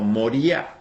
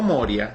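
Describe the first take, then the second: First: The stress falls on the syllable 'ri'. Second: The stress falls on the syllable 'mo'. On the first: The speaker calls it right. "sino Moría ... en el hebreo lleva tilde" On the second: The speaker calls it wrong. "se pronuncia no Moria"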